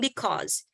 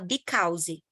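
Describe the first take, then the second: First: It is said with a native English accent. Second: It is said with a Brazilian Portuguese accent. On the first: "e não because" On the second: "a gente fala because"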